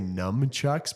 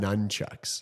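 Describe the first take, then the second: First: The first syllable sounds like 'numb'. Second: The first syllable sounds like 'nun'. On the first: The speaker calls it wrong. "a lot of people say nunchucks" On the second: The speaker calls it right. "but it's"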